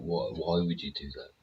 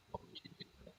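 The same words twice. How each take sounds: First: Said in the usual way. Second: Whispered, barely voiced disbelief; incredulous whisper. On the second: Real, not acted. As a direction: breathe the question out to yourself in disbelief. Repeating the question, fading to whisper.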